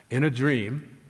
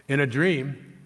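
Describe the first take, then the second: Both takes have the same delivery.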